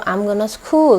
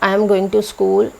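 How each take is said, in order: First: The words are reduced and run together. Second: Each word is said fully and separately. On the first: The speaker calls it right. "जब बोलते हैं तो" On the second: The speaker calls it wrong. "ऐसे नहीं"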